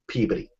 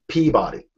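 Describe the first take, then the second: First: It is said the local Massachusetts way. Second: It is said in a different, non-local way. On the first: The speaker calls it wrong. "I didn't realize that it was not Peabody" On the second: The speaker calls it right. "It's Peabody"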